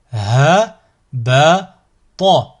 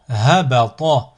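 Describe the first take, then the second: First: Slow, each syllable drawn out separately; split into syllables. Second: Syllables joined as one word. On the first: Teacher models a word for learners to repeat, split into syllables. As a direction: cut the word up, pausing between syllables. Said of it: "décomposer le mot". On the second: Teacher models a word for learners to repeat, joined in one go. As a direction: run the syllables together without pauses. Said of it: "ensuite le mot". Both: Shown as a demonstration.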